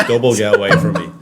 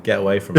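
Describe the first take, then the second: First: Louder, laughing, punching "Double"; mock-emphatic double refusal; escalated refusal. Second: Brushing off the offer; a light get-lost, no real force; half-joking refusal; mock refusal. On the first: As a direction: hit "Double" hard through a laugh. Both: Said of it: "I'm like".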